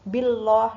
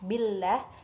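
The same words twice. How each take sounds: First: The L is thick, with a darker O-like vowel. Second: The L is thin, with a light A vowel. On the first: The speaker calls it wrong. "Itu kan tebal ya" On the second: The speaker calls it right. "harusnya kan tipis"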